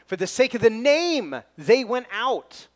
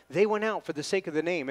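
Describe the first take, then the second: First: Emphatic front-loaded phrase peaking loudly on name; stress on name. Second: Said in the usual way. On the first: Shown as a demonstration. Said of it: "John places the emphasis on the word name here". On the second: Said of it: "if you wanted to read it the way that he read it, it's, it's like this. Not".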